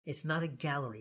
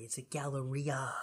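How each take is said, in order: First: "gallery" said the everyday way; plain word. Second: "galleria" drawn out slowly, softly, stress on the RI; fancy. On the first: Correcting co-host on the mall's name, plain "gallery". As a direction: say "gallery" as the ordinary English word. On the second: Teasing co-host about the fancy mall, slow, fancy "galleria". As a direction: stretch "galleria" into gal-le-REE-a. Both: Shown as a demonstration. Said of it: "Let's be fancy".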